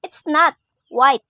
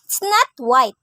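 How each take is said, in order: First: "It's not... white", with "white" set apart; loud "not", then a break before "white"; pause before WHITE. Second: "It's not white" run together, loud on "not"; stress on NOT. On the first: Teacher implying another color, "white" separated by a pause. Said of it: "many color rather than white". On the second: Teacher states it is not white, "not" stressed. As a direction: hit "not" and let "white" follow straight on. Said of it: "differ because of the use of intonation". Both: Shown as a demonstration.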